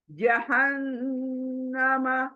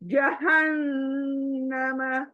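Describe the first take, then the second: First: The n is held long with a nasal hum. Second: The n is held long with a nasal hum.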